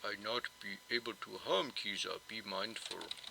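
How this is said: It is read in a put-on Jotun voice.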